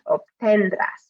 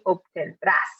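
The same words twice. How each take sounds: First: The stress is on the middle syllable. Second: The stress is on the last syllable. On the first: The speaker calls it wrong. "we would highlight the middle" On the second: The speaker calls it right. "strong at the end"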